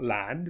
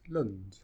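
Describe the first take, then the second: First: The vowel is full and clear. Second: The vowel is reduced and weak. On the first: The speaker calls it wrong. "so it's not land" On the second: The speaker calls it right. "it becomes lund"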